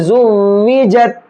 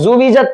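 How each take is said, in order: First: The w sound is held and doubled. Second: The w sound is short and single. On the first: The speaker calls it right. "इस पर थोड़ा सा रुकेंगे" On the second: The speaker calls it wrong. "अक्सर लोग यहाँ पर पढ़ने में गलती करते हैं, ज़ुविजत पढ़ते हैं"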